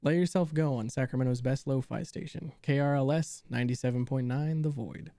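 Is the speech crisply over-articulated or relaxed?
over-articulated. The words are spoken with exaggerated, crisp articulation.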